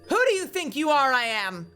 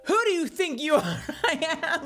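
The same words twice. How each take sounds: First: It is said seriously, with deliberate intention. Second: It is said casually, breaking into laughter.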